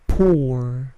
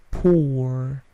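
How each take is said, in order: Both takes have the same delivery.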